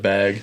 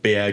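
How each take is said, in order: First: The word is said in a standard accent. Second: The word is said in a Massachusetts accent. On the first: This is how it is usually said. "instead of bag" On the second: This is how the wife says it. "she says like bag"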